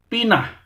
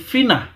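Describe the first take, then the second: First: The word begins with a p sound. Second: The word begins with an f sound. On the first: The speaker calls it right. "tetapi pinah" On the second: The speaker calls it wrong. "sebenarnya bukan finah"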